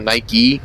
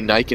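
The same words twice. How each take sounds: First: The name is said the American way. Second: The name is said the British way. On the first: "instead of Nike" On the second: "people from the U K would say Nike"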